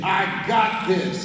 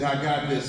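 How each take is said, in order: First: "I got this." slow and louder, landing hard on "got"; mean every word of "I got this."; with conviction. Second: Said in the usual way. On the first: Shown as a demonstration. Speaker to audience, showing how to say it: slow, firm conviction. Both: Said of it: "Say it with conviction".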